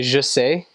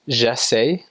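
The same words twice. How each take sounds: First: "je sais" with a neutral "zhuh" first vowel; French "je sais", first vowel like "uh"; French "I know". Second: "je sais" with an open "zheh" first vowel; French "je sais", first vowel like "eh"; French "I try". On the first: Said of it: "I know". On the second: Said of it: "I try". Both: Shown as a demonstration.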